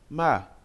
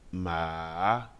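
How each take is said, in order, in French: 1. Le ton bouge vivement et brusquement. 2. Le ton descend puis remonte. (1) "Le quatrième ton est brusque" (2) "Le troisième ton est descendant et remontant"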